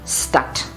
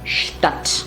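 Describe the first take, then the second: First: The word starts with a plain 'st' sound. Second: The word starts with a 'sht' sound. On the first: The speaker calls it wrong. "and not" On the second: The speaker calls it right. "the pronunciation becomes shp or sht"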